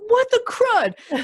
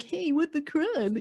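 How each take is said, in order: First: High, slow, laughing squeal of mock outrage; mock-offended Karen voice. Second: High, slow mock outrage on "what the crud"; mock-offended Karen voice. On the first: Karen spotting a podcast about Karens, high and slow in mock outrage. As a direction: stretch it out, high and mock-scandalized. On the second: Karen no longer needing to take offence, high and slow in mock outrage. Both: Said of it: "I say that in that voice".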